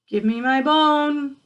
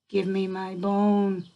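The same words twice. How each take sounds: First: It is said louder still, the loudest. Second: It is said a bit louder than before.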